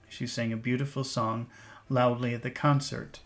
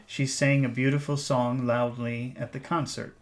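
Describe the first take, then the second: The two takes are said the same way.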